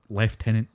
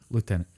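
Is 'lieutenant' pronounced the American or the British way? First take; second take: British; American. First: It is pronounced the old British way. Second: It is pronounced the American way.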